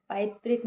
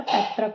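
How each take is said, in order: First: पैतृक said as पैत्रिक; mistaken ri. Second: Said in the usual way. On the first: Shown as a demonstration. Teacher rejecting a common error, mistaken ri. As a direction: put a clear रि in पैतृक. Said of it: "नहीं होता है". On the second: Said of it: "होता है".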